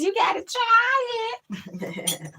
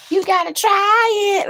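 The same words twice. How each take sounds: First: Very high, very slow quote; imitating the dude. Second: High, slow squeaky catchphrase voice; imitating the dude. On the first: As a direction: squeak out each word slowly. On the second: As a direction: stretch it out in a high voice. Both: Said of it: "Like the dude says".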